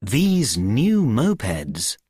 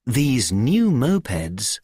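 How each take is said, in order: Both takes have the same delivery.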